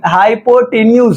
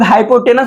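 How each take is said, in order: First: The word ends with a 'nyooz' sound. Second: The word ends with a short 'nus' sound. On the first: The speaker calls it right. "इसका जो होता है वो हाइपोटनी हाइपोटेन्यूज होता है" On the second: The speaker calls it wrong. "But वो wrong pronunciation है"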